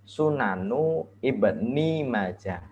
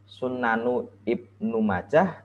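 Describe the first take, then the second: First: The middle word ends with an 'i' vowel. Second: The middle word ends with an 'u' vowel. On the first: The speaker calls it right. "yang benar ya sesuai kaidah bahasa" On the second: The speaker calls it wrong. "bukan Sunanu Ibnu Majah"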